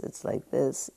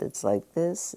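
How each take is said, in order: First: A whispered lullaby to yourself; whispered soothing. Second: Put-on softly, like a mother calming a child; soft soothing repetition. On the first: Teacher to class, whispering calm acceptance. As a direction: whisper it under the breath, gently. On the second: Teacher to class, gently soothing the mind. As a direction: murmur it gently to yourself. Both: Shown as a demonstration. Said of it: "is like being your own mother".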